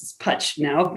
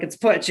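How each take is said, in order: First: "Putch" with the vowel of "cut"; modern pronunciation. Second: "Putch" with the vowel of "put"; dad's family pronunciation. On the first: Shown as a demonstration. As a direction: say "Putch" to rhyme with "much". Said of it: "she pronounced it Putch. That's how they pronounced it". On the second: Retold or imitated. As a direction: say "Putch" like "butch", short oo. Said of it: "my dad's always like".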